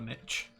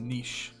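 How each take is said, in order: First: The word is said in an American way. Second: The word is said in a non-American way. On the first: The speaker calls it wrong. "That that American pronunciation" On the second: The speaker calls it right. "It's a niche"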